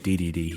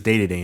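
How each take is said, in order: First: Each syllable is said with a 'dee' vowel. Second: Each syllable is said with a 'day' vowel. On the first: This is how it is said here. "we call it D D D here" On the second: This is how it is said in Japan. "they pronounce it as Day to Day in Japan"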